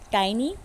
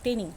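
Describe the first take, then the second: First: The first vowel sounds like 'eye'. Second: The first vowel sounds like short 'ih'. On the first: The speaker calls it right. "Correct the pronunciation" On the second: The speaker calls it wrong. "it's not tinny"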